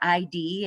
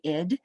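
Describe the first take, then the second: First: It is spoken as two separate letter names. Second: It is spoken as a single short syllable. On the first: The speaker calls it wrong. "some of you will pronounce it as I D, and it's not" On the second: The speaker calls it right. "it's actually id"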